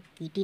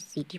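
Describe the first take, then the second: First: The word begins with a k sound. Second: The word begins with an s sound. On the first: The speaker calls it wrong. "इसको कीटी नहीं पढ़ेंगे" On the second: The speaker calls it right. "सीटी पढ़ेंगे"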